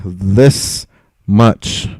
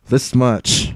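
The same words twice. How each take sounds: First: This and much split by a pause, each word stressed; 1 emphatic, spaced out. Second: Said in the usual way. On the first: Shown as a demonstration. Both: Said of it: "I'll make that very, very clear here".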